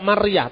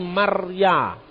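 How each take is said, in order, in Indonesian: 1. Kata ini berakhir dengan bunyi h yang terdengar. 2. Kata ini berakhir dengan vokal biasa.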